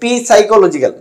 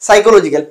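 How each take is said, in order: First: The word starts with a sounded p. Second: The word starts with an s sound.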